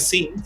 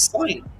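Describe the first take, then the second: First: The vowel is short, like in 'fin'. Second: The vowel is long, like in 'fine'. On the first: The speaker calls it wrong. "esto no es sin" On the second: The speaker calls it right. "sino es sign"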